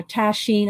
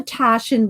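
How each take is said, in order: First: "Taschen" as tash-EEN, with an "ee" ending; alternative pronunciation. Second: "Taschen" as TASH-en, short unstressed ending; first pronunciation. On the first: Unsure of the publisher's name, "Taschen" tried as tash-EEN. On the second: Showing viewers an art book, "Taschen" said as TASH-en. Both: Shown as a demonstration. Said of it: "not sure how you pronounce it".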